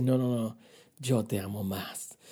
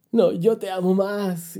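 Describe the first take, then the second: First: Low, soft, slow declaration of love; tender reply. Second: Slow, drawn-out lovers' comeback in full voice; loving insistence. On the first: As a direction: answer gently and slowly, as God reassuring a believer. God answers the believer lovingly. (respuesta tierna, grave, suave y pausada) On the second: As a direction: insist back, stretching the words out. Believer playfully insists back to God. (insistencia cariñosa, alargada y a plena voz) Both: Acted.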